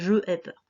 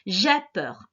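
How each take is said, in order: First: Je and ai are said as separate syllables. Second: Je is elided and joined to ai. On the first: The speaker calls it wrong. "On ne dit pas je ai peur" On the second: The speaker calls it right.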